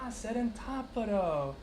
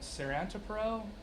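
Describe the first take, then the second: First: The name is said imitating the local Greek pronunciation. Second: The name is said with an English-style pronunciation. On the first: The speaker calls it right. "they're like, ah" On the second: The speaker calls it wrong. "I'm sure I'm not pronouncing right"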